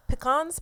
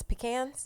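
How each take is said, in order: First: "Pecans" as pi-KAHNZ, higher and questioning; "Pecans" rhyming its last syllable with swans. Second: "Pecans" as pi-KANZ, softer and questioning; "Pecans" with its last syllable like cans. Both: Shown as a demonstration. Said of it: "Tomato and tomato".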